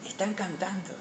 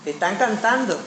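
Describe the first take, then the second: First: Much softer, almost under the breath; hushed repeat. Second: Said in the usual way. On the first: Retold or imitated. Preacher repeats Moses' answer to the congregation, hushed. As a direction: drop right down in volume to let it sink in.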